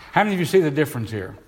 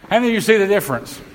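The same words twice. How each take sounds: First: Said in the usual way. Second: Raised pitch, quick rousing question; rally a sluggish congregation for a response; more excited. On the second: Real, not acted. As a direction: ask it fast and high, prompting hands. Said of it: "I wish you all get as excited".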